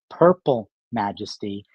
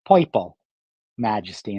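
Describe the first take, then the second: First: Purple has a plain standard vowel. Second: Purple has a New York 'oi' vowel.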